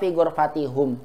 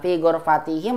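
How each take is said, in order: First: The suffix is pronounced hum with a u vowel. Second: The suffix is pronounced him with an i vowel. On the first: The speaker calls it wrong. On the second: The speaker calls it right.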